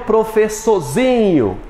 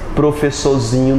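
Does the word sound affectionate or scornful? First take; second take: affectionate; scornful. First: It is said in a warm, affectionate tone. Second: It is said in a scornful, dismissive tone. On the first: The teacher is dear to the speaker. "sentido afetivo... Positivo" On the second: The teacher is looked down on.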